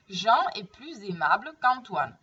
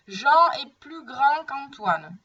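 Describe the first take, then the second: First: Plus linked to aimable with a Z sound, "plu-zaimable"; liaison after plus. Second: Plus said as "plu", final S silent, slowly. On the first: Teacher's example before a vowel, plus linked to aimable by liaison. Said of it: "faire la liaison". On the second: Teacher's example of plus before an adjective, S of plus left silent. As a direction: drop the S of plus before grand. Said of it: "je prononce pas le S". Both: Shown as a demonstration.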